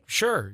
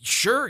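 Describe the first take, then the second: First: It sounds passive and indifferent. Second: It sounds excited and eager.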